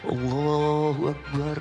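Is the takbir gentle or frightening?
gentle. It is said gently and movingly.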